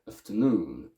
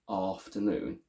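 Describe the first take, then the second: First: The first syllable has a weak schwa vowel. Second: The first syllable has a full, strong vowel. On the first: The speaker calls it wrong. "both pronounced as uh, schwa because they're not stressed" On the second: The speaker calls it right. "We keep it strong"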